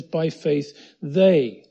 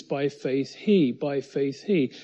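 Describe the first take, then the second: First: "they" stretched out, loud and falling; stress on "they". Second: "he" drawn out as the key word; stress on "he". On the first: Preacher showing it is now all the people, stress on "they". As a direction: punch and lengthen the word "they". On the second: Preacher contrasting Moses alone with the people, stress on "he". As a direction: lean on "he" at the end of each phrase. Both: Shown as a demonstration. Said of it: "But now it says".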